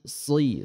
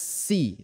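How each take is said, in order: First: The s sound is thick and twisted. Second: The s sound is thin and plain. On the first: "sedikit agak dipelintir" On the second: "Kalau huruf sin ihdinas si, seperti itu"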